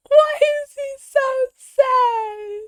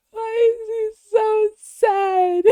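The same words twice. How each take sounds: First: High, slow pleading whine for the cat; mock pitying whine. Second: Sung, high, slow sing-song lament. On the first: Streamer to the sad cat on screen, high slow pitying whine. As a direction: stretch it high like cooing at a sad pet. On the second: Acted. Streamer singing over the sad cat edit, high slow sung lament. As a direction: sing it like a mournful little tune. Sings the same line again.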